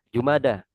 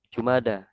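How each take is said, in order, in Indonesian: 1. Kata itu berakhir dengan vokal 'a'. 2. Kata itu berakhir dengan vokal 'a'.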